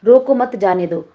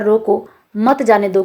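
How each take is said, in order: First: "रोको मत" together, then "जाने दो"; slowly, grouping रोको with मत; phrase it "रोको मत, जाने दो"; comma after मत. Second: "रोको", pause, then "मत जाने दो"; slowly, setting रोको apart from मत; comma after रोको. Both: Shown as a demonstration. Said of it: "comma के माध्यम से दो अर्थ".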